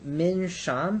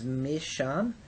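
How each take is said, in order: First: An n sound is heard before the sh. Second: The n merges into the following sh.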